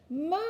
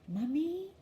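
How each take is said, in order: First: The word is yelled as loud as possible. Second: The word is said very quietly.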